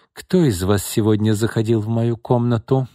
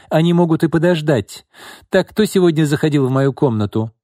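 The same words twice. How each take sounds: First: Mildly angry question, slightly raised; a touch of wrath; angry demand. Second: High, loud demand for an answer; imperious and insistent; raised voice. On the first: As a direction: demand an answer with contained anger. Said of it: "гневно спросила Изольда". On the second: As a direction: take charge with a raised voice. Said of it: "повысила голос Изольда". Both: A narrator's reading.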